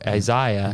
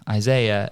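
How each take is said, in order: First: It is said with an English pronunciation. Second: It is said with an American pronunciation. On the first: "English say Isaiah" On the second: "why do Americans all say Isaiah"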